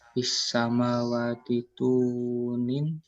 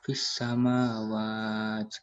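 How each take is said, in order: First: The final vowel is pronounced, linking onward. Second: The word ends abruptly without the final vowel. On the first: The reading continues without stopping. "Jika terus dibaca" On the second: The reader stops at this word. "jika berhenti dibaca"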